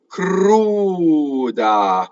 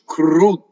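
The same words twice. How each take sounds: First: A long oo flows into a short D. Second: The voice stops before a long, doubled D. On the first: The speaker calls it right. "Keep the oo long, and then just don't stop phonation for the D" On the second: The speaker calls it wrong. "I can demonstrate double D as where you have a stoppage"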